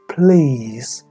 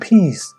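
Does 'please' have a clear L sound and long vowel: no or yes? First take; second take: yes; no. First: The L is clear and the vowel is long. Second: The L is dropped and the vowel is short. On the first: The speaker calls it right. "其实有个L 音和拉长中间的syllable" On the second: The speaker calls it wrong. "有很多时候我听到学生或者啲成年人他都说"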